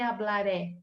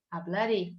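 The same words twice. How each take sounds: First: HABLARÉ ending in an open E. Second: HABLARÉ ending in a closed E. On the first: Teacher showing the mistake to avoid, open E in "hablaré". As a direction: say "hablaré" with a wide Portuguese final E. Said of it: "eu não vou dizer". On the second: Teacher modelling the Spanish way, closed E in "hablaré". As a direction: say "hablaré" with a narrow Spanish final E, like "ê". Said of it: "eu vou dizer". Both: Shown as a demonstration.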